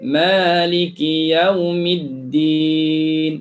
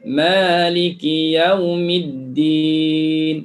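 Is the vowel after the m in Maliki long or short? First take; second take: long; long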